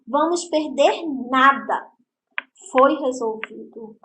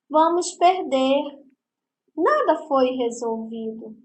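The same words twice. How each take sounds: First: The pause comes right after 'nada'. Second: The pause comes right after 'perder'.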